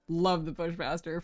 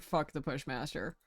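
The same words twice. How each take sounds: First: Slow, sweet mock love; fake adoring. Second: Softer, lower grumble; grumbling. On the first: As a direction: say it like a devoted fan. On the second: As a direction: spit it out with disdain. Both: Shown as a demonstration.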